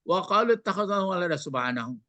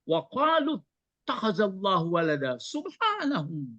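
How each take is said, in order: First: The final word subhanahu gets no special emphasis. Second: The final word subhanahu is strongly emphasized. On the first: The reader does not understand the meaning. The speaker calls it wrong. "Jadi jangan" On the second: Subhanahu is heard as a rebuttal of the claim. The speaker calls it right. "Gitu membacanya"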